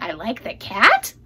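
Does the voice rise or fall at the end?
rise. The voice rises at the end, like a question.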